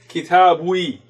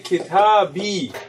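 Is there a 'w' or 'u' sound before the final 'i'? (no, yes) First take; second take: yes; no. First: A 'w' sound comes before the final 'i'. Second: The 'b' goes straight into the final 'i'. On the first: The speaker calls it wrong. "it would be uncomfortable to say kitabwi. It doesn't sound right" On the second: The speaker calls it right. "So you say kitabi"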